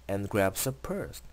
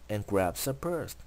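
No difference in how they are said.

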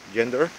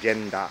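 First: The word ends with an r-colored vowel. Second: The word ends with a long a vowel. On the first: "en inglés es gender, like er" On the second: "ponen genda y después ponen un guión al final significando que extiendes esa vocal"

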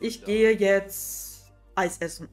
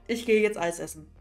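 First: There is a pause between 'jetzt' and 'Eis essen'. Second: The phrase flows smoothly without any pause. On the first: The speaker is hesitating while thinking. "Pausen zwischen den Wörtern ... weil ich überlegt habe" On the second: The hesitation has been removed. "So dass es halt flüssig ist"

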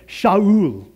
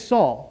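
First: The name is said with a Hebrew-like pronunciation. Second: The name is said with an English pronunciation. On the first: "If you heard that in Hebrew, ... It's like Shaul" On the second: "I said Saul a whole bunch of times"

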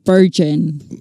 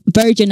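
First: The word begins with a b-like sound. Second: The word begins with a clear v sound. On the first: The speaker calls it wrong. "not virgin. ... like saying Bergen" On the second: The speaker calls it right.

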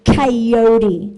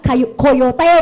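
First: It ends with a 'dee' sound, English-style. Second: It ends with a 'tay' sound, Japanese-style. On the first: The speaker calls it right. "แต่จริงๆต้องอ่านว่าไคโยดีนะคะ" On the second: The speaker calls it wrong. "ออกแนวญี่ปุ่นนะคะ"

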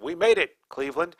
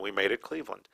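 First: There is a pause before Cleveland, addressing it. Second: It runs straight on with no pause before Cleveland. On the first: The city is being addressed directly. The speaker calls it right. "They meant" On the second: Something was turned into Cleveland. The speaker calls it wrong. "you'll notice there's no comma. ... reading it this way would make it seem that they turned something into Cleveland"

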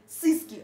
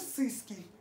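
First: The word is said clearly, without a whistle. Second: The word is said with a whistling lisp. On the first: This is the pronunciation intended. The speaker calls it right. "Я хочу сказать «сыски»" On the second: This is what comes out because of a missing tooth. The speaker calls it wrong. "а у меня получается «сыски»... из этого свистит"

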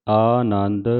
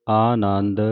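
No difference in how they are said.

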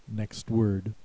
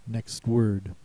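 Both takes have the same delivery.

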